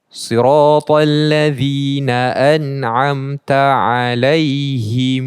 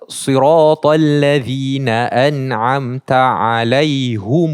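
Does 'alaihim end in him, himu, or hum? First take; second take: himu; hum. First: The word ends in -himu with a lengthened u. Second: The word ends in -hum with a u vowel. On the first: "dia tak baca alaihim tapi baca alaihimu" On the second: "ni dah jadi alaihum"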